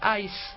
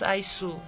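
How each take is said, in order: First: The final u vowel is silent. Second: The final u vowel is fully sounded. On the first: The speaker calls it right. "sino que ais" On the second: The speaker calls it wrong. "No decimos aisu"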